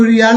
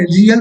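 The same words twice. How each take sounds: First: "रियाल" with a long aa before the L; long final vowel. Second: "रियल" with a short a before the L; short final vowel. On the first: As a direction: say "रियाल" as ri-yaal. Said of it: "इसको रियाल नहीं पढ़ेंगे". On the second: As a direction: say "रियल" as ri-yal. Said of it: "रियल पढ़ेंगे". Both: Shown as a demonstration.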